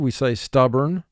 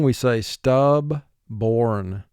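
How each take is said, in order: First: The second syllable is short and reduced. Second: The second syllable is fully pronounced as born. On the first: This is how it sounds in everyday speech. "conversationally, we say stubborn" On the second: This sounds out each part for spelling. "For spelling, we say stub-born"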